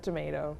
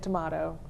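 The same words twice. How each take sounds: First: The middle vowel is American, like tomayto. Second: The middle vowel is British, like tomahto. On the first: The usual home usage. "instead of tomato" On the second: A slip into the usage picked up abroad. "sometimes I would slip and say tomato"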